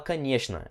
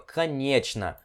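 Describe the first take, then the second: First: The middle consonant loses its original sound. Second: The middle consonant keeps its full written sound. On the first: This is how people actually say it. "a gente fala um pouco mais rápido ... ela perde o som original dela" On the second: This is how the word is written. "ela é escrita assim, ó"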